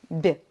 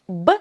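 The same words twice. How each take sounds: First: The consonant is soft, palatalized. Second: The consonant is hard, not palatalized.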